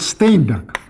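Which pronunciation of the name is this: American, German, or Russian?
Russian. The name is said in a Russian way. "Russian translation of his book, there he is called Steinberg"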